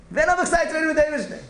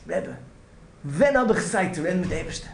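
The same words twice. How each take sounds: First: The repeat cried out high and loud; desperate cry to the Rebbe; anguished outcry. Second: Said in the usual way. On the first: Retold or imitated. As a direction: plead it again, louder and higher, like a man at the end of his rope. Man's anguished plea repeated louder.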